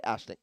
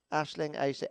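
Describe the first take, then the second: First: Aisling said once, quietly and with a fall; settled pronunciation. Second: Aisling tried two ways, quietly; trying out Aisling. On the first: Commentator settling on how to say Aisling. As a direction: land on Aisling, softly confirmed. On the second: Commentator checking how to say Aisling. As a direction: test how Aisling sounds, softly. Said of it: "Is that right how I'm saying it?". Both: Shown as a demonstration.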